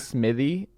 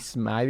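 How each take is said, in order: First: The surname ends with an 'ee' sound. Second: The surname ends without an 'ee' sound. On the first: The speaker calls it right. "Smithy is how I always tell people on the phone, just Smith with an E Y on the end" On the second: The speaker calls it wrong. "in my head, because I've read you, it's [name]"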